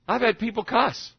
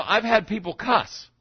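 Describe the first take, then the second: First: "cuss" takes the falling weight; plain pace, weight on "cuss"; stress on cuss. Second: "had" leaned on, slow and drawn out; slowed, weight on "had"; stress on had. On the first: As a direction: hit "cuss" at the end. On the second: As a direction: land on "had", not on "cuss". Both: Shown as a demonstration. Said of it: "repeated line, stress shifted".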